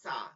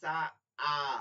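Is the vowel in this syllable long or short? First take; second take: short; long. First: The vowel is short and clipped. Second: The vowel is drawn out long. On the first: "সিন জবর সা" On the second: "সিন খালি আলিফ জবর সা"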